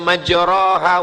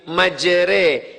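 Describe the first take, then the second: First: The vowel after the r is an open a. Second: The vowel after the r leans toward e. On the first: The speaker calls it wrong. "Dia tidak dibaca" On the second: The speaker calls it right. "tapi majre, miring, condong"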